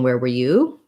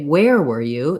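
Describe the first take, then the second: First: The stress falls on the word you. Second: The stress falls on the word where. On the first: The question is turned back on the listener. "if you're asking specifically um, back to that person" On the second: The place the person was is unknown. "if I knew that they were somewhere, but I didn't know where"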